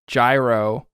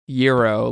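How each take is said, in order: First: It begins with a J sound, like jai-ro. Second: It begins with a Y sound, like yee-ro. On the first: It names the baseball pitch. The speaker calls it right. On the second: It names the Greek sandwich. The speaker calls it wrong.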